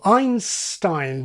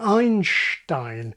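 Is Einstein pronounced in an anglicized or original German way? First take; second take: anglicized; German. First: It is pronounced with English sounds. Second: It is pronounced with German sounds. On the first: The name has been adapted to English. "assimilate the word, nativize it" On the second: The name keeps its original form. "rather than"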